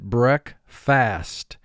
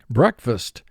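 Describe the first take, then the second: First: It is said as two separate, full parts. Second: It is said as one natural, reduced word.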